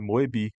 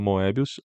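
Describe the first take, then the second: First: The name ends without an 'us' sound. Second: The name ends with an audible 'us' sound. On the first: The speaker calls it right. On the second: The speaker calls it wrong.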